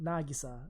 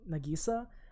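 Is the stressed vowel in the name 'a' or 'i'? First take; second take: a; i. First: The stress falls on a syllable with a. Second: The stress falls on the syllable with i. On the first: This is how the Japanese version says it. "with the emphasis on the A" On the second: This is how the English dub says it. "but in the emphasize in the I"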